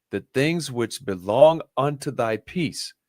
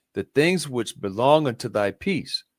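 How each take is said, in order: Both takes have the same delivery.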